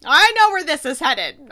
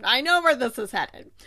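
First: Louder, punching know, half-teasing. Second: Said in the usual way. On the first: Shown as a demonstration. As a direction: call it out loud like you've figured it out.

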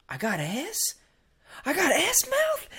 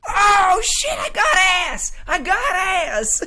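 First: High, rising mock-incredulous question; imitated disbelief. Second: Very high, full-volume comic yell; mock horrified shout. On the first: Crazy friend finding out what he tasted, mock disbelief. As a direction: question it in comic shock, laughing through. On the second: Crazy friend licking his tongue and realizing, mock horrified shouting. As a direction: yell it out, dragging the last words.

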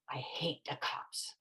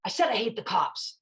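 First: Very soft, slow and half-whispered; quiet mock mutter. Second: Voiced up and clear, imitating a defiant kid; defiant repeat. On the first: Ten-year-old boy to himself near a detective, muttered softly. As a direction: say it low, imitating a kid under his breath. Boy's first, unasked remark about cops. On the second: Boy answers the detective's challenge, openly defiant. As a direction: repeat it firmly, higher, for the challenger to hear.

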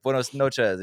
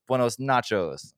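First: Said in the usual way. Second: "nachos" said slowly in place of "noches"; kid's mistake. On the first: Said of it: "she's like". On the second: Retold or imitated. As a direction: drag out "Buenos nachos" like a goofy kid. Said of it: "And he goes".

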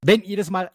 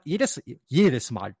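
First: Said in the usual way. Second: Jedes stretched slow and weighted; stress on jedes. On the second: Shown as a demonstration. Host stressing the card's trigger to listeners, slow and emphatic. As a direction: lean hard on jedes, jedes Mal. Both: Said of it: "die Betonung liegt auf jedes Mal".

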